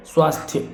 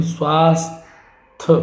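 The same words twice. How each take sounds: First: स्वास्थ्य as "svaas-thya"; final thya. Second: स्वास्थ्य broken as "svaas-th"; y dropped. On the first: Teacher correcting the word, स्वास्थ्य ending in "thya". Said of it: "शुद्ध है". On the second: Teacher showing the mistake, स्वास्थ्य ending in "th". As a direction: end स्वास्थ्य on "th" without a glide. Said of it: "तो ये गलत हो गया". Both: Shown as a demonstration.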